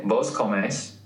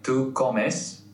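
First: "comes" said with the stress on its final syllable, co-MES; stress on the last syllable. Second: Said in the usual way. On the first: Shown as a demonstration. Explaining the vos form to his co-host, "comes" stressed on its final syllable. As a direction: shift the weight of "comes" onto the end, co-MES. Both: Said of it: "The stress goes on the last syllable".

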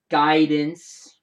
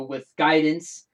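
First: "guidance" repeated much louder with a rising tune; loud sarcastic guidance. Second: "guidance" drawn out slowly and leaned on; slow down and weigh the word "guidance"; slow stress on guidance. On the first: Repeating the district's word, loud rising "guidance". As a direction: punch "guidance" loud and let it rise, mocking. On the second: Mocking the district's excuse, slow weighted "guidance". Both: Real, not acted. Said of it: "big word there".

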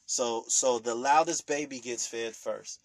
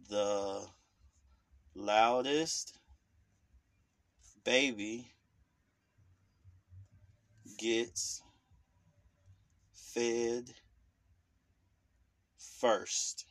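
First: Said in the usual way. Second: Put-on The loudest baby gets fed first said slowly with a long pause after every word. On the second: Shown as a demonstration. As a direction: drop each word separately and let the silences land. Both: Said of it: "There you go".

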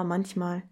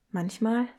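First: "manchmal." dropped low and soft with a falling end; falling echo. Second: "Manchmal?" with a rising question tune; questioning echo. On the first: Poem speaker answering herself, "manchmal." falling and soft. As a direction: let "manchmal." fall away as an afterthought. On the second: Poem speaker doubting her own word, "Manchmal?" rising. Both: Acted.

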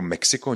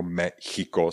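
First: "Mexiko" with a Czech ks in the middle; ordinary Czech Meksiko for "Mexiko". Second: "Mexico" as Me-chiko, with a throat ch. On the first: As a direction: say the x of "Mexiko" as k plus s. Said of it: "někde se píše jako Mexiko". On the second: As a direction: split out the ch sound in "Mexico". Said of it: "jako Mexico s ch". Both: Shown as a demonstration.

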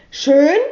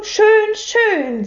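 First: "Schön" thrown back louder, rising sharply; questioning echo. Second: High, delighted, falling in satisfaction; beaming. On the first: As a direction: repeat "Schön" as a baffled question. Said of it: "fragte sie". („Schön“ als fragendes Echo, Stimme steigend) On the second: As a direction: say "Schön" with open pleasure. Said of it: "Herr Taschenbier strahlte". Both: A narrator's reading.

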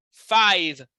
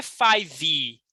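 First: Five ending cleanly on the V, no vowel after; correct pronunciation. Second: Five with an extra vowel at the end, "fai-vi"; wrong pronunciation. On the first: Teacher modeling the right five, ending on V. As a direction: close five on a crisp V, no "i". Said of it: "a palavra toda termina no V". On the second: Teacher showing students a wrong, Brazilian "faivi". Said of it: "Não é five". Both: Shown as a demonstration.

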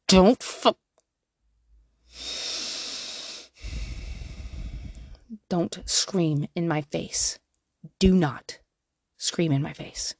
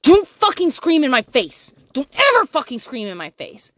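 First: Slow, soft, steady correction; calm and firm. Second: Higher and louder furious outburst; angry yell. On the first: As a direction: keep it level and gentle with the child. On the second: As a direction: snap at the child in a mock rage. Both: Retold or imitated. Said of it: "Instead of".

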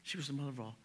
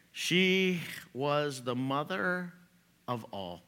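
First: "She was the mother of all" repeated much softer. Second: "She was the mother of all" said slowly, each word weighted; slow emphatic. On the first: Preacher repeating the point softly to the congregation. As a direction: let it fall to a near hush. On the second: Preacher stressing Eve's role to the congregation, slow weight. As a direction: lean on every word, slow. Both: Shown as a demonstration.

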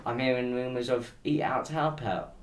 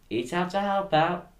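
First: Said in the usual way. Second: Slow, higher, louder mock advert slogan. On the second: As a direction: sell it like a cheesy government jingle.

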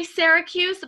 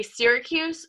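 First: Syracuse with an open e, "Sarah-cuse". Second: Syracuse with an "ee" start, "Seer-acuse"; fancier Syracuse, like sear. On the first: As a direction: start Syracuse with the vowel of "Sarah". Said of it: "like Sarah". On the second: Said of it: "it's fancier to say Syracuse". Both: Shown as a demonstration.

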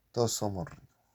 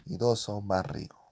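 First: A light quoted-character voice, slightly off his own; Pato Chico's voice. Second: Said in the usual way. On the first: Retold or imitated. (cita con voz ligera de personaje) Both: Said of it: "dijo el Pato Chico".

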